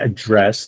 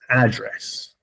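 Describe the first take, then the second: First: The stress is on the second syllable. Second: The stress is on the first syllable. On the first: It is a verb meaning to talk to someone. "this is a verb" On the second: It is a noun meaning where a person lives. "That the accent is not here, the A"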